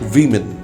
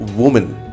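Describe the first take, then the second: First: The word sounds like plural women. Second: The word sounds like singular woman. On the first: The speaker calls it right. "it sounds women" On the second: The speaker calls it wrong. "we pronounce woman. No"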